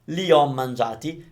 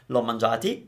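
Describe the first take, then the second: First: Both words are said fully, two vowels side by side. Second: The first vowel is dropped, joining the two words. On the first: The speaker calls it right. "You cannot shorten this one" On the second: The speaker calls it wrong. "in a shortened version like l'ho mangiati, maybe. It's incorrect"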